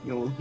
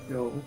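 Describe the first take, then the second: The two takes are said the same way.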